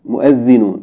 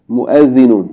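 No difference in how they are said.

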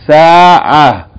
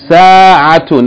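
First: The word ends in a soft h, no vowel. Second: The word ends in a t with vowel and n. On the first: The word is read with a stop on it. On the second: The word is read without stopping on it.

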